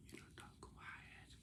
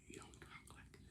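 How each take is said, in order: First: Faint whisper, barely there; too-quiet whisper. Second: Faint breathy whisper, barely audible; whispering too quietly. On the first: Kid showing what talking quiet sounds like, whispered. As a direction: drop to a hushed whisper. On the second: Kid showing the wrong way to talk, a tiny whisper. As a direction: whisper it so no one can hear. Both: Shown as a demonstration.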